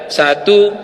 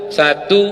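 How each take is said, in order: Both takes have the same delivery.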